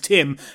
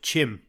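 First: The name begins with a plain T sound. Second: The name begins with a CH sound. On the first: "my name's Tim" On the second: "they say T's with like a CH"

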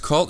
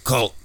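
First: It is said in a normal voice. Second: It is said in a deep, heavy voice. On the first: It is the ordinary kind of cult. "there's cult" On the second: It is the truly obscure, serious kind of cult. "you have to like say that with your balls"

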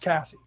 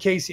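First: The name rhymes with 'sassy'. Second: The name does not rhyme with 'sassy'. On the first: The speaker calls it right. "it's probably pronounced Cassie, Like sassy" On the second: The speaker calls it wrong. "I always say Casey, and I always say it wrong"

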